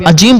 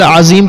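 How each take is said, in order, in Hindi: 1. बीच का व्यंजन 'j' ध्वनि है। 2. बीच का व्यंजन एक गूंजती हुई 'z' ध्वनि है। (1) "पढ़ दिया तो फिर ये माना तब्दील हो जाएगा" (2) "सुबहान रब्बियल अजीम की जगह"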